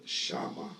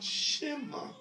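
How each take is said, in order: First: Shama with an open "ah" in both syllables; shama, first vowel "ah" rather than "eh"; correct vowel, shama. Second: Shema with a short "eh" in the first syllable; shema, first vowel "eh" rather than "ah"; wrong vowel, shema. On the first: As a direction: say "shama" as shah-MAH, lower. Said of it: "but shama". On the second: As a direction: say "shema" as SHEH-mah, pitched up. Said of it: "Not shema". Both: Shown as a demonstration.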